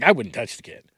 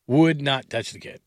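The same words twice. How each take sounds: First: Said in the usual way. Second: WOULD NOT spelled out slowly and firmly; slow down, lean on "Would not"; emphatic repeat. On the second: Real, not acted. Host rules out signing the gambling player, emphatic and slow.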